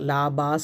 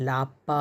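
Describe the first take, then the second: First: The middle consonant is a soft b sound. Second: The middle consonant is a hard p sound. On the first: The speaker calls it wrong. "லாபா சொல்லக்கூடாது" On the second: The speaker calls it right.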